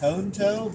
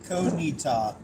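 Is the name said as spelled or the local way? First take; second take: as spelled; local. First: The name is read out as it is spelled. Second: The name is said the way locals say it. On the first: This is how the spelling suggests it. The speaker calls it wrong. "it looks like" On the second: This is how it is actually said. The speaker calls it right. "but it is pronounced"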